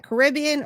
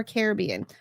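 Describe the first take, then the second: First: Caribbean as kuh-RIB-ee-un; stress on second syllable. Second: Caribbean as CARE-uh-BEE-un; full CARE to open Caribbean, then stress BEE; stress on third syllable. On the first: Host asks chat to spell it, Caribbean as kuh-RIB-ee-un. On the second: Host asks chat to spell it, Caribbean as CARE-uh-BEE-un. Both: Shown as a demonstration. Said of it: "phonetically spell it out in the chat".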